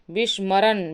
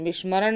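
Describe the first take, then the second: First: विस्मरण ending in dental n; plain n at the end of विस्मरण; wrong form. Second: विस्मरण with a hard retroflex ending; correct form. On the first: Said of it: "विस्मरण नहीं होता". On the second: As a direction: curl into "vismaraṇḍa" for विस्मरण. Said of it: "बल्कि विस्मरण होता है". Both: Shown as a demonstration.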